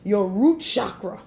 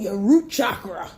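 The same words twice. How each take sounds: First: Chakra starts with an 'sh' sound, like shock. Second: Chakra starts with a 'ch' sound. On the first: The speaker calls it wrong. "let's pronounce it wrong. ... Like it's gonna shock you like electricity" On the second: The speaker calls it right. "If they pronouncing it right"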